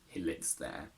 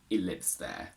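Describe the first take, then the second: First: The h in 'he' is clearly pronounced. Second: The h in 'he' is dropped. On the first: The speaker calls it right. "rather than" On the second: The speaker calls it wrong. "some people would say"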